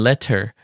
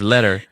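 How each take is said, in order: First: The T is pronounced crisply and fully. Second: The T is softened, not fully pronounced. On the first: "if you enunciate every letter" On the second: "instead of letter"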